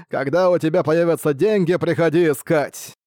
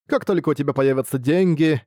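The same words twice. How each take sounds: First: Booming echoing villain monologue. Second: Said in the usual way. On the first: A narrator's reading. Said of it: "зловещий голос". (зловещий гулкий голос, насмешливо) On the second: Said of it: "проговорил лодочник".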